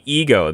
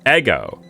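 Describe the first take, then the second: First: The first vowel is long, like 'ee'. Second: The first vowel is short, like 'eh'. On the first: "Now it's going to be ego" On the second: "to actually have it be ego, then I have to have it have two G's"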